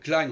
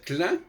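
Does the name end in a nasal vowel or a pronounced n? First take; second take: pronounced n; nasal vowel. First: It ends with a clearly pronounced n consonant. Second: It ends with a nasal vowel and no n. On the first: The speaker calls it wrong. "on ne doit pas dire Klein" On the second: The speaker calls it right. "on doit dire Klein"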